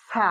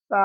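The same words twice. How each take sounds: First: সা with a sharp s; wrong hard sa. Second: সা softened to a th-like sound; soft sa. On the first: Teacher showing the mistake to avoid, hard সা. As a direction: hiss the start of সা like a plain s. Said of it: "তাহলে ভুল হয়ে যাবে". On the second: Teacher showing how it is read, soft সা. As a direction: say সা lightly from the tongue tip. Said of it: "আমি নরম করে পড়ছি". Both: Shown as a demonstration.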